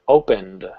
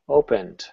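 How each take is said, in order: First: The word ends with a clear d sound. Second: The word ends with a softened t sound. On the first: "I use the d sound" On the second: "I put the T sound there, but I softened it"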